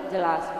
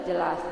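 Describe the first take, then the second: Both takes have the same delivery.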